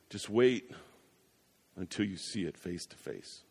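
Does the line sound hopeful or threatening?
threatening. It is said in an ominous, warning tone. The meeting will bring judgment. "If you don't know Jesus, I would say it this way"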